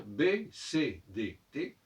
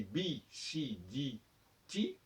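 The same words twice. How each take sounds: First: "B, C, D, T" as bé, cé, dé, té; name "B, C, D, T" with French é vowels; French letter names. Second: "B, C, D, T" as bee, see, dee, tee; name "B, C, D, T" with English ee vowels; English letter names. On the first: Teacher correcting English toward French, "B, C, D, T" ending in é. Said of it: "comme le font les Français". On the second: Teacher showing the English problem, "B, C, D, T" ending in ee. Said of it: "le nom des lettres en, en anglais". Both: Shown as a demonstration.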